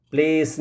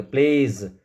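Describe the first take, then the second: First: "प्लेस" with a voiceless s at the end; hissed s ending. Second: "प्लेज" ending in a buzzed z; voiced z ending. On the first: Teacher showing learners what not to say, hissed s ending. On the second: Teacher giving learners the corrected word, voiced z ending. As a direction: say "प्लेज" as plays, with a final z. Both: Shown as a demonstration. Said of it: "प्लेस नहीं बोलेंगे".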